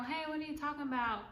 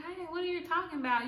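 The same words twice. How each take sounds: First: A lightly raised, quick, sweet innocent voice; softer replay of the innocent denial; lighter sweet roommate. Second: High, quick, innocent playing-dumb voice; sweet innocent roommate. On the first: Retold or imitated. Roommate repeating her denial, lighter sweet innocent voice. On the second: Roommate denying taking the deodorant, high sweet innocent voice. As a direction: sound sweet and clueless, up high and fast. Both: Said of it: "she was a sweet girl".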